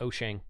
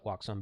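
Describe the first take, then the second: First: The name sounds like 'oh-shang'. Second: The name sounds like 'wax-on'. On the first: The speaker calls it right. "the correct pronunciation is Oshang" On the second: The speaker calls it wrong. "I usually call it Waxon"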